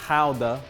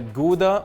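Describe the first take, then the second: First: The word is said with Dutch pronunciation. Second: The word is said with English pronunciation.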